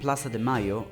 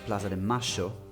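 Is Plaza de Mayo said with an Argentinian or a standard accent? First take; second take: standard; Argentinian. First: It is said without an Argentinian accent. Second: It is said with an Argentinian accent.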